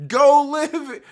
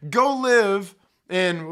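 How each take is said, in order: First: Higher, louder barked "Go live"; angry shout. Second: "go live in" dragged out slowly, louder; slow emphatic repeat. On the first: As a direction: throw "Go live" at them like an order. Angry rant, telling them off. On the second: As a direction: stretch each word of "go live in". Same rant, drawn out. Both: Real, not acted.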